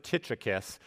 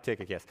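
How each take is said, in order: First: Tychicus with a "ch" as in "church" in the middle; alternative pronunciation. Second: Tychicus with a hard k in the middle; preferred pronunciation. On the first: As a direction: say Tychicus as "TITCH-ih-kus". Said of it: "Some people pronounce it". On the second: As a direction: say Tychicus as "TICK-ih-kus". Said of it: "I like Tychicus". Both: Shown as a demonstration.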